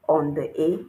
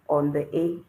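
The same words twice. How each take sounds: Both takes have the same delivery.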